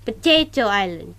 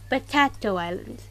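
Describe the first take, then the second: First: "Potato" in "Potato Island" with a long ay, po-TAY-to; correct pronunciation. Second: "Potato" in "Potato Island" with a flat a, po-TA-to Island; wrong pronunciation. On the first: Streamer correcting the island's name, po-TAY-to. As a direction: say "Potato Island" as po-TAY-toe Island, a touch louder. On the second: Streamer showing the wrong island name, po-TA-to. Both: Shown as a demonstration. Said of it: "not Potato Island".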